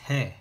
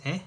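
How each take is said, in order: First: He said with a clear h before the vowel; aspirated he. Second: E with no h sound; vowel said bare, no breath before it; plain e. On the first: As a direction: breathe out h then e. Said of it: "this is he". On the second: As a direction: contrast without aspiration. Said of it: "this is e". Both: Shown as a demonstration.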